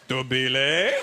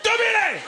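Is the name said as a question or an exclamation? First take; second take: question; exclamation. First: It is said as a rising question. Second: It is shouted loudly as an exclamation.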